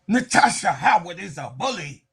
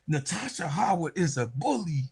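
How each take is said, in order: First: It is said intensely through gritted teeth. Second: It is said in a plain, relaxed voice.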